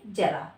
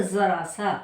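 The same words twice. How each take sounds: First: जरा with a clear j, as in jar; Hindi j sound. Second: जरा सा with a buzzing z for ज; Urdu z sound. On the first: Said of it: "और हिंदी में". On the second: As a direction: say जरा सा as "zara sa". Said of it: "Urdu में हम इसको बोलेंगे". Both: Shown as a demonstration.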